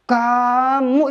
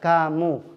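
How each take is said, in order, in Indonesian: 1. Diucapkan dengan marah, dengan vokal yang dipanjangkan. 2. Diucapkan dengan tenang, dengan vokal yang pendek. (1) "ketika marah ke satu teman"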